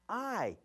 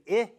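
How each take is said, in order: First: The vowel sounds like the letter's name. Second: The vowel is a short i sound. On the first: The speaker calls it right. "I would say I" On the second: The speaker calls it wrong. "So I wouldn't say I here"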